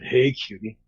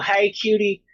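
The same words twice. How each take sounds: First: It is said in a very deep voice. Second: It is said in a normal voice.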